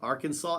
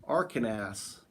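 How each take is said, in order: First: "Arkansas" as AR-kan-saw, silent final s, rising; checking "Arkansas" as AR-kan-saw; Arkansas said right. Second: "Arkansas" as AR-kan-sass, like Kansas with a final s; spelled-out Arkansas. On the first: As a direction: ask "Arkansas?" the proper way, ending in -saw. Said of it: "Is that Arkansas?". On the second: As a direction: read "Arkansas" the way it's spelled, sounding the final s. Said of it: "I would say I'm Arkansas". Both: Shown as a demonstration.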